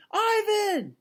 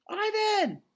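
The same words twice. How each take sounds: First: Put-on high shout of a girl's voice; girl's yell. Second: Put-on girl's yell. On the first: Girl calling to her gorilla friend, a high shout. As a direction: call out his name again, eager. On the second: Girl calling to the gorilla across the moat, a high yell. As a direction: shout his name to reach him. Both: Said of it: "the girl yells".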